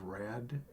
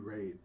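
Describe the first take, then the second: First: The word has a short vowel, like rad. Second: The word has a long vowel, like rate. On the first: The speaker calls it wrong. "I think I was mispronouncing. Instead of rad" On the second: The speaker calls it right. "it should be rate"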